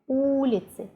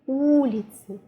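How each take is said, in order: No difference in how they are said.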